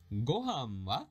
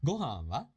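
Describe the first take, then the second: First: "Gohan wa" drawn out slowly; slow, awkward reading. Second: "Gohan wa" at natural pace; full speed. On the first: Teacher reading a sample conversation, slow and careful. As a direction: read "Gohan wa" at learner's pace. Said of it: "that was a little awkward". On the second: Teacher rereading a sample conversation at full speed. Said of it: "read that at a full speed". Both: Shown as a demonstration.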